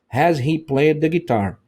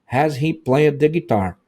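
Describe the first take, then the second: No difference in how they are said.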